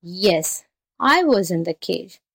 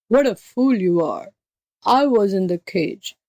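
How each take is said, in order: First: Lightly voiced muddled jackal; feigned fright. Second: Scornful beast voice; impatient tiger. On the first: A narrator's reading. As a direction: echo it meekly, as if afraid. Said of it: "pretending to tremble with fright". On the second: Acted. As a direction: put the jackal right as an exasperated tiger. Tiger figure corrects the jackal.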